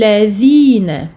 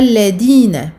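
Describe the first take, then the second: First: The middle consonant is a soft 'th' sound. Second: The middle consonant is a hard 'd' sound. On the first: The speaker calls it right. "on pose le bout de la langue sous les incisives supérieures" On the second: The speaker calls it wrong. "et non pas ladina"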